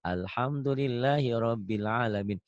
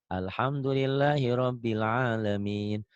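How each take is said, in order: The two takes are said the same way.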